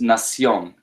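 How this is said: The c is pronounced like an s sound. This is the Latin American pronunciation. "In Latin America, that's nación. That's like an S"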